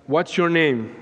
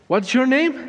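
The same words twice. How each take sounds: First: Said in the usual way. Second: High, insistent demand; sharp repeated question. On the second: Retold or imitated.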